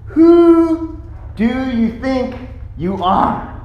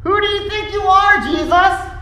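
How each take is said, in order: First: Slow, drawn-out challenge, starting high; deliberate, affronted questioning; indignant challenge. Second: Very high-pitched outraged challenge; incredulous, indignant cry at the top of the voice. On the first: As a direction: challenge him word by word. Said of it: "the gist of their challenge is". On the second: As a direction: burst out in offended disbelief. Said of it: "the elders were indignant". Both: Acted.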